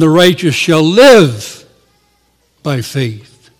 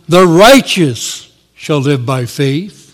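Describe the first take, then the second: First: The stress falls on the word live. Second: The stress falls on the word righteous. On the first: Faith should shape how each day is lived. "we should place the emphasis on the righteous shall live by faith" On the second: It is the justified person who lives by faith. "the emphasis falls on the righteous shall live by faith"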